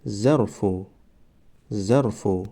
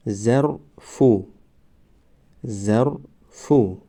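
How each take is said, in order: First: Said in the usual way. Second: ظرفو stretched very slowly, syllable by syllable; drawn-out demo. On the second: Shown as a demonstration. Teacher modelling the word for students, very slow. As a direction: draw out ظرفو slowly for the class. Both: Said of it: "ما باید همان حرف را فقط آوازش را تلفظ کنیم".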